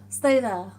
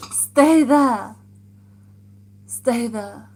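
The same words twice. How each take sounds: First: Said in the usual way. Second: Loud call across the room; shouted command. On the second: Real, not acted. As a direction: shout it firmly so they stay. Calling out to someone.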